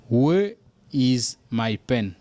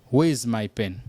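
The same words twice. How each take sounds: First: Very slow, word by word; slow model sentence for students; slow and careful. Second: Said in the usual way. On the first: Shown as a demonstration. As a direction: drag it out for learners.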